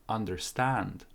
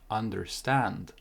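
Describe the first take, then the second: The two takes are said the same way.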